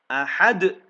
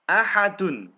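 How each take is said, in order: First: The word ends on a strong bouncing consonant. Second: The word ends on its full final syllable. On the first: The reader stops at this word. "Dalnya pantulannya tebal" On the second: The reading continues without stopping. "ini domah tain juga ini"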